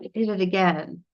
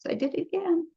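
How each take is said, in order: First: It is said in a heavy, serious tone. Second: It is said in a light, casual tone. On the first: The mistake is treated as a grave matter. The speaker calls it wrong. "we don't want to say it with seriousness" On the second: The mistake is shrugged off without guilt. The speaker calls it right. "like just, oops"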